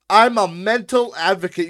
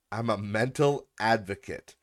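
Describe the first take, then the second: First: High, very loud mocking quote; mocking shout. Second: Said in the usual way. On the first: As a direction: yell the quote back in ridicule. Mockingly shouts back the comment.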